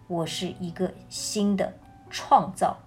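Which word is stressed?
创造. The stress is on the word 创造.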